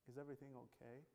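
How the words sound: It is said in a kind, gentle tone.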